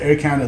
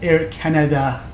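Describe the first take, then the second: First: It is said the ordinary everyday way. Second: It is said the way radio pilots say it. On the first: The speaker calls it wrong. "they don't say Air Canada" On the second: The speaker calls it right. "I'll say it like the actual pilots"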